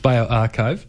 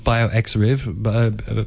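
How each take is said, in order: First: The middle is said like the word archive. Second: The middle is said like the letter X. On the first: The speaker calls it right. "It's bioarchive" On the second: The speaker calls it wrong. "Which I've heard people pronounce as bioxriv"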